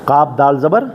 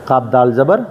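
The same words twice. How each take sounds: Both takes have the same delivery.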